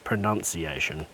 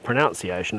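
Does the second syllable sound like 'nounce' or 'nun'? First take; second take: nun; nounce. First: The second syllable sounds like 'nun'. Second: The second syllable sounds like 'nounce'. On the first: The speaker calls it right. "it's pronunciation. You say pronounce or pronunciation" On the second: The speaker calls it wrong. "it's not pronunciation"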